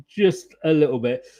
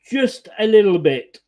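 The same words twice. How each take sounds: First: Said in the usual way. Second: Laughing through the words. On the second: Real, not acted. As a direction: chuckle while saying it. Laughing at own joke.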